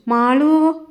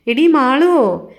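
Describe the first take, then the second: First: A first call across the house, a little higher and louder; old aunt calling for Malu. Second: Slow, louder second call, leaning on എടീ; impatient aunt calling Malu again; insistent call. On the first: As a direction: call the name toward the kitchen. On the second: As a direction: drag out എടീ മാളുവോ, a sharper summons. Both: A narrator's reading. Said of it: "വലിയമ്മ വിളിച്ചു".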